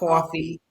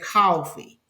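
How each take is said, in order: First: It is said in a Brooklyn accent. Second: It is said in a Georgia accent.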